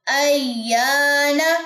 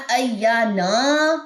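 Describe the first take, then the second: First: Very slow ایانا with a rising close; correct recitation. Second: Very slow ایانا with the a after nun dragged long; wrong long nun vowel. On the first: Teacher giving the correct ایانا, rising and slow. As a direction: draw the alif in ایانا, keep the nun short. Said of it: "یہ نہیں پڑھنا". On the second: Teacher showing the wrong ایانا, nun vowel dragged. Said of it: "نون کی زبر کو لمبا نہیں کرنا". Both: Shown as a demonstration.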